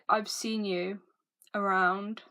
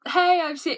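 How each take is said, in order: First: It is said in a creepy, unfriendly tone. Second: It is said in a friendly, nice tone.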